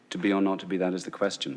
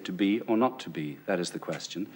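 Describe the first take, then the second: First: It is said flatly, without inflection. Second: It is said with natural, clear inflection.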